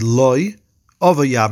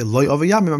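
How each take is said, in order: First: There is a pause after the first word. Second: All the words run together without a pause. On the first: No, my yevam does want to take me. The speaker calls it wrong. "So not to say" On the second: My yevam does not want to take me. The speaker calls it right. "Make sure to say it all together"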